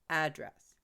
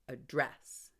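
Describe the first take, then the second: First: The stress is on the first syllable. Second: The stress is on the second syllable. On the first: It is a noun meaning a location. "If I make the first syllable stronger" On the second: It is a verb meaning to speak to someone. "It becomes a verb if I stress the second syllable"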